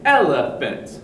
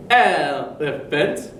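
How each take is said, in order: First: Said in the usual way. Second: "elephant" slow with even beats, e-le-phant; wrong stress. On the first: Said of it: "we'd say". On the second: Shown as a demonstration. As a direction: chop "elephant" into three equal beats. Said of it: "So we wouldn't say".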